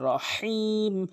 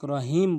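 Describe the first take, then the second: First: The h sound comes from deep in the throat. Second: The h sound is plain, not from the throat. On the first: The speaker calls it right. "হলকের মাঝখান থেকে" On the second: The speaker calls it wrong. "অধিকাংশ লোক রহিম বলে"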